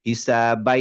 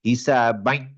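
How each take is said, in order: First: It is said clearly, with no nasal sound. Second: It is said nasally and the sound is choked. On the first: The nasal sound is missing. "স্পষ্ট আসতেছে কিন্তু নাক কিন্তু পুরা চেপে ধরে রেখে দিছি আমি" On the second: The nasal sound is being used. "নাকটা চেপে ধরে নাকে নেওয়ার চেষ্টা করি, হিসাবাই আসে নাই সাউন্ড"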